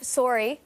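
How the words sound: It is said with a Canadian vowel. "which is Canadian"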